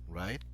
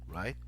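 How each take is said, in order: Both takes have the same delivery.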